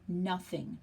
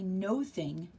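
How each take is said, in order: First: It starts with 'nuh', as one word. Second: It starts with 'no', like two words. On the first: The speaker calls it right. "we say nothing" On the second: The speaker calls it wrong. "Now we don't say no thing"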